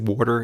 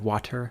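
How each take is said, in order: First: The middle T sounds like a soft D. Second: The middle T is a clear T sound.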